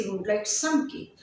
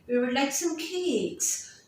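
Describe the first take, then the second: First: Said in the usual way. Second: Slowly, with "cakes" carrying the main stress and fall. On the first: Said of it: "You won't say". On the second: Shown as a demonstration. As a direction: lean on "cakes" at the end. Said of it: "the stress and the main information".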